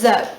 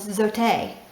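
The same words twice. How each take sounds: First: The word is said the English way. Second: The word is said the Spanish way. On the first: "in English" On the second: "I've been saying it wrong. It's called Zote"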